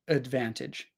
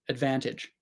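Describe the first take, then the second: First: The first vowel is a reduced schwa sound. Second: The first vowel is a reduced schwa sound.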